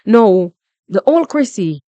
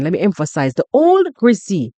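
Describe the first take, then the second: First: Said in the usual way. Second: Put-on old said with weight; stress on old. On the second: Shown as a demonstration. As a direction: lean hard on the word old in the old Chrissy.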